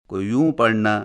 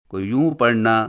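No difference in how they are said.

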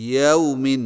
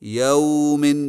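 First: The vowel glide is short, not drawn out. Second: The vowel glide is stretched and drawn out. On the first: The speaker calls it right. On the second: The speaker calls it wrong.

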